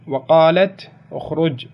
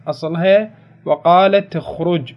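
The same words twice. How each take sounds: First: وقالت with the taa taking a kasra into اخرج, slow; slow demo of the kasra form وقالتِ اخرج. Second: وقالت with a silent taa, slowly: "وقالتْ اخرج"; slow demo of the sukun form وقالتْ; underlying sukun. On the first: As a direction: say "وقالتِ اخرج" joined smoothly. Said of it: "فكسرت التاء لالتقاء الساكنين". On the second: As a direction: stop dead on the taa of وقالت before اخرج. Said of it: "أساسًا ساكنة". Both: Shown as a demonstration.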